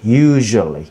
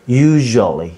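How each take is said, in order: Both takes have the same delivery.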